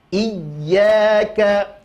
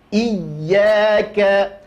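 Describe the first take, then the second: The two takes are said the same way.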